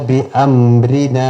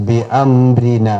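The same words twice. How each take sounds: Both takes have the same delivery.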